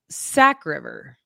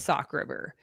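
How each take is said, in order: First: The first word rhymes with back. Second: The first word rhymes with rock. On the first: This is how the locals say it. "they called it Sack River" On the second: This is how the speaker used to say it. "I called it Sock River"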